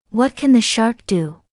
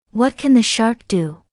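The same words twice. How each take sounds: The two takes are said the same way.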